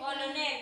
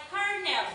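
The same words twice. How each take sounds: First: "Colonel" as spelt, "ko-lo-nel"; three syllables in "Colonel", sounding both o's; misreading. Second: "Colonel" in two syllables, "kar-nel"; correct reading. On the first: Retold or imitated. Teacher repeating a pupil's misreading, "Colonel" said "ko-lo-nel". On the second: Shown as a demonstration. Teacher giving the right reading, "Colonel" said "kar-nel". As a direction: say "Colonel" like "kernel". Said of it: "Ang basa dito ay".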